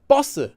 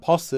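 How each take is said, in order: First: The first consonant is a tense doubled sound. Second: The first consonant is a plain single sound. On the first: The speaker calls it right. "pronounced with a double consonant" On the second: The speaker calls it wrong. "It's not posse"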